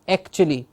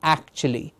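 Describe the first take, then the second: First: The first vowel is narrow, like eh. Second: The first vowel is wide open, like ah. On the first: The speaker calls it wrong. "some students will mispronounce it to say actually" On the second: The speaker calls it right. "Open the jaw to say, ah, actually"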